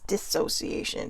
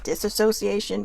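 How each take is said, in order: First: No extra syllable follows the first syllable. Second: An extra 'a' syllable follows the first syllable. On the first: The speaker calls it right. "but it was dissociation, so no A" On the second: The speaker calls it wrong. "I was actually mispronouncing it. I was calling it disassociation"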